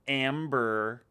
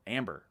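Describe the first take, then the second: First: Amber with a hard, drawn-out American r; mock American, leaning on the final r; exaggerated American accent. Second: Said in the usual way. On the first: Australian girl mimicking how Americans say Amber, exaggerated American accent. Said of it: "But the Americans always go". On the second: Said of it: "That's how you say Amber here in the U S".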